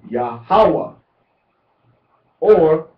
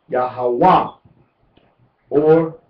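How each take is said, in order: No difference in how they are said.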